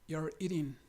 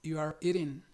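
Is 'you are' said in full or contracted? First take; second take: contracted; full. First: You and are merge into one syllable. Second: You and are are said as separate words. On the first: "si lo abreviamos, el you are pasa a ser you're" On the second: "La expresión completa es you are eating"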